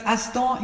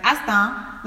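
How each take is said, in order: First: Aston said the English way, with an "o" sound. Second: Astan said slowly in a West African accent, open "a" and rising. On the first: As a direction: Aston in the English style, not the African one. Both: Shown as a demonstration. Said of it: "you need to say it with the African accent".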